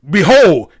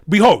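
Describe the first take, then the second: First: It is said forcefully, with conviction. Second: It is said weakly, without conviction.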